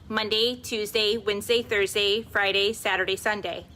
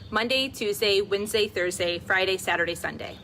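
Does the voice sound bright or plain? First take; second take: bright; plain. First: The voice has a bright, raised, forward resonance. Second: The voice has its plain, unbrightened resonance. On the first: "the brightest filter on my voice that I can" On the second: "the unfiltered selfie of my voice"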